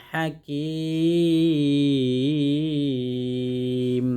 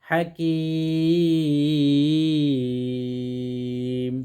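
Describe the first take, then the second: No difference in how they are said.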